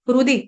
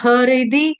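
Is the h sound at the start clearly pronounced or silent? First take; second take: silent; pronounced. First: The h is silent. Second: The h is pronounced fully with an added vowel. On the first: The speaker calls it right. "हृदि का हर ह जो है ना ये silent है" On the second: The speaker calls it wrong. "इसको ह ह हरिदि या हरुदि ऐसे नहीं पढ़ेंगे"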